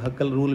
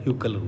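First: The name starts with a plain 'huh' sound. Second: The name starts with a 'hyoo' sound. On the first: "लोग हकल rule भी बोल देते हैं" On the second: "exactly इसे pronounce किया था ह्यूकल rule"

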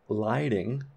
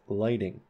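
First: The first vowel is unraised, as in ride. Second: The first vowel is raised, as in right. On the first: The speaker calls it wrong. "this isn't lighting" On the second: The speaker calls it right. "this is lighting"

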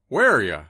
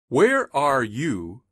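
First: The word 'you' is reduced to 'ya'. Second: The word 'you' is said in full.

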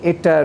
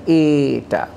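First: The vowel is said short. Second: The vowel is said long. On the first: The speaker calls it right. "where the vowel is phonetically short, we say eta" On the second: The speaker calls it wrong. "rather than eta"

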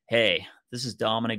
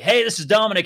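First: The greeting is said with low, subdued energy. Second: The greeting is said with high, lively energy. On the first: It matches a caller who answered quietly. "take it down a notch" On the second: It matches a caller who answered energetically. "I'm going to tone match"

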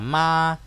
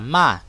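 First: The pitch stays high and level throughout. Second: The pitch drops sharply from high to low. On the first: "nếu có âm thứ nhất thì sẽ đọc là ma" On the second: "Nếu âm thứ tư sẽ đọc là ma"

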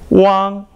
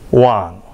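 First: The pitch stays high and level. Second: The pitch dips low, then rises.

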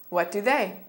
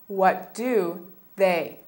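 First: The phrase is said at a faster pace. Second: The phrase is said at a slower pace.

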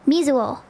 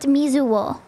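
First: The particle is pronounced as a plain o. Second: The particle is pronounced with a w, as wo. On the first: "other people just people pronounce it more as like o"

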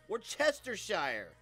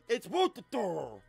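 First: Every written syllable of the word is pronounced. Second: Some written syllables of the word are dropped. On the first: "It's like it literally says, if you say it, pronounce it" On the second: "But now, yeah, no"

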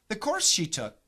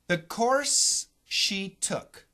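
First: The phrase is said quickly. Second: The phrase is said slowly. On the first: "Now I'll say it fast" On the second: "I'll say it slow"

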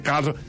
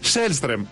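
First: The name begins with a K sound. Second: The name begins with an Sh sound. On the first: This is how the press usually says the name. The speaker calls it wrong. "Κάλστρομ και Κάλστρομ" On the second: This is how the player says his own name. The speaker calls it right. "Σέλστρεμ λέγομαι"

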